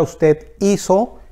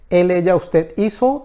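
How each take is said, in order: First: Usted hizo said slowly, leaning on hizo; slow careful hizo. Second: Said in the usual way. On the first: Shown as a demonstration. Teacher pointing out the irregular hizo, slow careful stress. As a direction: draw out hizo so students catch the irregular form. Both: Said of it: "que tiene una Z".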